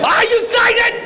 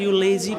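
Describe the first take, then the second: First: It is said with lively, high energy. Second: It is said with sluggish, low energy.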